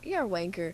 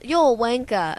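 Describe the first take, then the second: First: It is said with an American accent. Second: It is said with a British accent. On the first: The speaker calls it wrong. "it's just like doesn't sound as good" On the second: The speaker calls it right. "That just sounds so much better"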